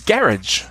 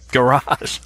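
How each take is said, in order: First: Garage said GARE-idge, first syllable stressed; copying listener's pronunciation. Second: Garage said guh-RAHZH, second syllable stressed; own American pronunciation. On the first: Retold or imitated. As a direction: end garage on a short "-idge". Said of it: "you're saying garage". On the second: Shown as a demonstration. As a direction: save the weight for the end of garage, "guh-RAHZH". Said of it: "Garage is what we say".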